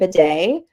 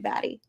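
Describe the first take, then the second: First: The name ends with a 'day' sound. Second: The name ends with a 'tee' sound. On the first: This is how the player himself says it. "he pronounces it bidet" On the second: This is how the spelling suggests it is said. "why on earth would you not insist on people calling you Batty?"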